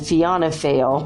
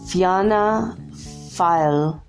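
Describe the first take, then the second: First: Fail sounds like the English word fail. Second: Fail is said differently from English fail. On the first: "I just said the word fail" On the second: "let me see if I can pronounce this correctly"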